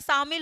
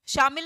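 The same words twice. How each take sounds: First: The word begins with an s sound. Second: The word begins with an sh sound. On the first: The speaker calls it right. "शामिल होता है" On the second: The speaker calls it wrong. "शामिल नहीं होता"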